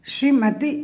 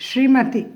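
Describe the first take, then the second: The two takes are said the same way.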